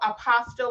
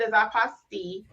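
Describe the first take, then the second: First: It is said like the English word apostle. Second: It is said with a French pronunciation. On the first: The speaker calls it wrong. "apostle, like in the Bible, which is t- definitely not the correct way" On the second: The speaker calls it right. "the French word, like you said, is apostille"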